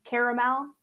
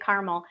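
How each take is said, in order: First: The word is said with three syllables. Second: The word is said with two syllables. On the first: This is the standard pronunciation. The speaker calls it right. "I realize it is caramel" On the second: This is the local way of saying it. The speaker calls it wrong. "I don't say it. I say caramel"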